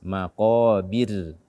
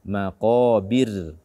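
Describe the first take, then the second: No difference in how they are said.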